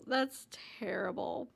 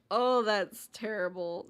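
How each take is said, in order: First: Hushed whispered dismay. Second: Said in the usual way. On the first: Real, not acted. Repeats reaction whispered.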